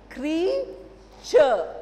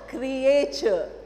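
First: The first syllable is a single 'cree' sound. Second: The first syllable is split like 'cree-ay'. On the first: The speaker calls it right. "The pronunciation is creature" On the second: The speaker calls it wrong. "Not creature"

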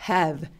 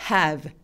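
Both takes have the same delivery.

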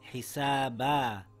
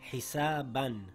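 First: The word ends with a long a vowel. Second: The word ends with an n sound. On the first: "When we are reading and come to a stop, we read it with one fatha and one alif" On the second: "The word reads hisaban"

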